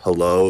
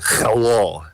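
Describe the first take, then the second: First: It is said in a plain, unaccented voice. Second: It is said with a put-on Russian accent. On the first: "instead of hello" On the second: "it was very like hello sort of thing"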